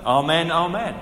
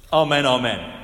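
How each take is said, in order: First: Said in the usual way. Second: "amen, amen" said louder and firmly as an opening oath; emphatic amen. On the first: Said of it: "people would often say at the end". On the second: Retold or imitated. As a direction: slam down "amen, amen" before anything else. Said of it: "Jesus is saying".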